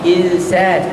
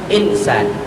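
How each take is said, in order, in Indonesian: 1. Bunyi n tersembunyi sebagai bunyi sengau. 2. Bunyi n diucapkan dengan jelas dan penuh. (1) "dia jabat bacaan ikhfa" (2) "tulisan Rumi kita insan lah jadinya"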